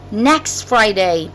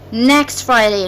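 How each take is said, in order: First: The T of next is dropped. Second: The T of next is dropped.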